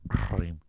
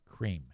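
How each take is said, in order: First: The word sounds pulled back into the throat. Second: The word sounds forward, on teeth and tongue tip. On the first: This is the imitated person's way of saying it. "you can feel that little fucking thing in the back of your throat" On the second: This is how most people say it. "if a normal person says cream, it's up here. It's up on my teeth and the tip of my tongue"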